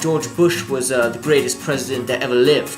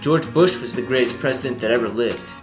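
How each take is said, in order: First: It is spoken in a British accent. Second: It is spoken in an American accent. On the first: It sounds more believable. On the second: It sounds less believable.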